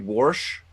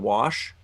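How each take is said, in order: First: An R sound is added inside the word. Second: No R sound is added inside the word. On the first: "They add an R" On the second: "instead of wash"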